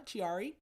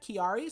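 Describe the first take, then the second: First: Chiari said as chee-AH-ree, with a ch sound and a questioning rise; Chiari with a ch sound, like a guess; unsure pronunciation. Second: Kiari said as kee-AH-ree, with a hard k and a questioning rise; alternate pronunciation. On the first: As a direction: try Chiari with a ch at the start, unsure. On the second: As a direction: try Kiari with a hard k, unsure. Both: Shown as a demonstration. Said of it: "Something like that?".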